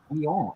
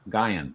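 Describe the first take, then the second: First: The name is said with French pronunciation. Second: The name is said with English pronunciation. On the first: This is a guess at how the name would sound in French. The speaker calls it wrong. "is how I would pronounce it if it was French" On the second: This is how the man himself said his name. The speaker calls it right. "Gaian is how he pronounced it"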